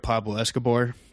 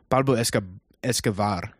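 First: The b sound is said as a plain b. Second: The b sound is said softly, like a v. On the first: "we're simple folk" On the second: "He said it with kind of a V"

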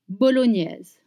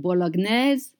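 First: The middle consonant sounds like 'ni' in onion. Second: The middle consonant is a plain G and N. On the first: The speaker calls it right. "Make sure to say the new sound, like in onion" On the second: The speaker calls it wrong. "Do not say bolognese"

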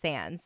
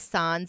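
First: The word is pronounced the English way. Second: The word is pronounced the French way. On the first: It is the normal way to say it. "but it's sans" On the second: It is said as a joke. "You could say sans if you're like being funny, like jokey"

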